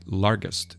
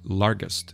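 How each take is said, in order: First: The middle consonant is a hard g sound. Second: The middle consonant is a hard g sound.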